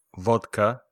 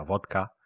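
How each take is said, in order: First: Vodka said the English way, clear and full; English pronunciation. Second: Vodka said the Spanish way, softer and lower; Spanish pronunciation. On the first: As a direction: model vodka as an English word for learners. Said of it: "Licores en inglés son spirits". (vodka pronunciado a la inglesa) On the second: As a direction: give vodka as a quiet Spanish gloss. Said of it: "o sea". (vodka pronunciado en español, más bajo) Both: Shown as a demonstration.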